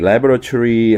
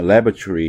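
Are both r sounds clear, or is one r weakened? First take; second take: both clear; one weakened. First: Both r sounds are clearly pronounced. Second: One r sound is weakened and nearly dropped. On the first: "우리가 이제 laboratory 하는데요" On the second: "R 발음이 역시 약화되면서"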